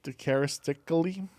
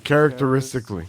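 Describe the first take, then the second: First: "charistically" with a syllable skipped; mispronounced. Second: "Characteristically" said fast with every syllable; correct pronunciation. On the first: Real, not acted. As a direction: stumble through "charistically". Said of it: "You need help reading?". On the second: Shown as a demonstration. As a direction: rattle off "Characteristically" properly.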